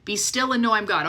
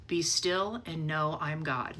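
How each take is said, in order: First: Said in the usual way. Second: Slow, soft, settled calm; a still, reassuring voice of God, slowly; calm divine voice. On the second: Retold or imitated. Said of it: "all I heard was".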